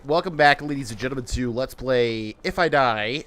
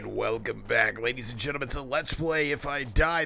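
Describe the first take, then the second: First: It is said in his natural voice. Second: It is said in a put-on voice.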